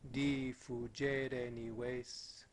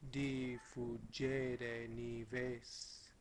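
First: It is spoken at a natural, normal speed. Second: It is spoken at a slower speed. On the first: "first at like a natural tempo" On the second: "And the same thing, slower"

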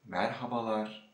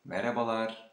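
First: The word is said at a slower, careful pace. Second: The word is said at a faster pace.

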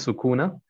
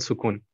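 First: The word ends with an extra 'a' vowel. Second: The word ends on the 'n' sound. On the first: The speaker calls it wrong. "Nicht Sukuna" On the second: The speaker calls it right. "sondern Sukun"

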